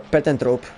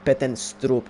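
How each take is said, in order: First: The name is said without an s sound. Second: The name is said with an s sound. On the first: The speaker calls it right. "it says that it's without the S" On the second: The speaker calls it wrong. "I say with with with the S"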